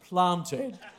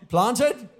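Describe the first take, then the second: First: Uses the speaker's own natural pronunciation. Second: Imitates a New Zealand accent with a questioning tune. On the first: "It's planted" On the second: "how you'd say it in New Zealander"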